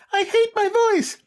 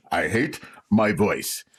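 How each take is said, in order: First: Very high, slow squeaky voice; a silly high-pitched mock complaint; cartoonish high whine of self-pity. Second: Slow, put-on moaning voice; a lightly voiced mopey whine; mock complainer voice. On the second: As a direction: drag it out like a sulky complainer.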